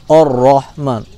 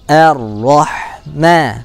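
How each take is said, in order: First: The opening vowel sounds thick, like an o. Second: The opening vowel sounds thin, like a smiling a. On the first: The speaker calls it wrong. "tidak boleh membaca hamzah dengan o ya, jangan" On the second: The speaker calls it right. "tapi tipis, senyumkan a"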